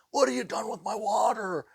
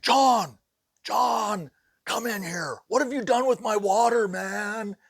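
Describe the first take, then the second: First: Sheetrocker impression. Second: High, loud panicked yelling; frantic shouting. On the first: Teller mimics the sheetrocker's way of talking: high frantic shout. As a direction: do the worker's frantic yell. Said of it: "he talks just like this". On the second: Retold or imitated. Sheetrocker calling the boss about his missing water: high panicked yell. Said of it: "my sheetrocker had a total fit".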